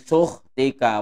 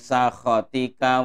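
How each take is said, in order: First: The word begins with 'u' and drops one syllable. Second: The word has three syllables with 'a' vowels.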